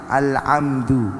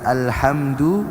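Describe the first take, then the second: First: The middle consonant is a throaty ain sound. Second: The middle consonant is a breathy ha sound. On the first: The speaker calls it wrong. "ha dibaca ain" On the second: The speaker calls it right. "Yang seharusnya dibaca alhamdu"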